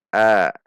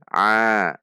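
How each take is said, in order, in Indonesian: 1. Vokalnya biasa, tidak dari tenggorokan. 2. Vokalnya ditekan dari tengah tenggorokan. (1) "Tidak dibaca a" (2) "namun dibaca a, a dari tengah tenggorokan"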